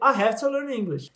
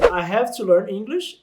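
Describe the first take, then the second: First: Have to is blended into hafta. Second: Have to is said fully with a v sound. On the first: "eu posso dizer" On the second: "ao invés de dizer"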